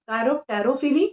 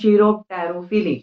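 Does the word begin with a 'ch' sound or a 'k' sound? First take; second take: k; ch. First: The word begins with a 'k' sound. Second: The word begins with a 'ch' sound. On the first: "so second type is कायरोप्टेरोफिली" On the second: "या इसे आप कई बार pronounce कर देते हैं"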